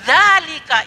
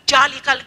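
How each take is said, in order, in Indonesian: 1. Kata ini diawali dengan bunyi yang mirip z. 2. Kata ini diawali dengan bunyi j. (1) "zalika itu" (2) "tidak ada ja, bukan ja itu"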